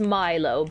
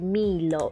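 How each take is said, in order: First: The first vowel sounds like 'eye'. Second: The first vowel sounds like 'ee'. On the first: "I think it's Milo" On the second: "Because an I is an E sound, like Milo"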